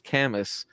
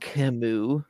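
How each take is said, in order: First: The name is read out as English spelling suggests. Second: The name is said with its French pronunciation. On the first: The speaker calls it wrong. "That's just how I read it" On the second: The speaker calls it right. "It's Camus"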